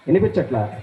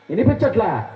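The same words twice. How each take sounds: First: Low-pitched puppet retort; low mock-innocent question; puppet's voice. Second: Said in the usual way. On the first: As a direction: answer low, as the cheeky puppet. Puppet claims dogs can be heard.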